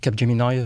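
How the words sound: The name is said with an English pronunciation.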